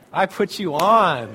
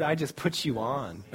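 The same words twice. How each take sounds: First: ON drawn out loud and slow; emphatic ON. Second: Said in the usual way. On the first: Shown as a demonstration. Preacher repeating a prayer to the congregation, loud slow stress on "on". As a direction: punch and stretch the word "on".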